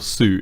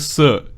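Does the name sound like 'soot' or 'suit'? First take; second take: suit; soot. First: The name rhymes with 'boot'. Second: The name rhymes with 'foot'. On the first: This is how Americans say it. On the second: This is the non-American way of saying it.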